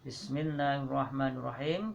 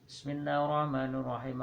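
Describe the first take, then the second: First: The phrase is recited slowly. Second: The phrase is recited quickly. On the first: The heart follows the meaning while reciting. The speaker calls it right. "kalau kita membaca secara pelan" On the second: The reciter cannot take in the meaning. The speaker calls it wrong. "Jangan kita biasa membaca secara, secara cepat"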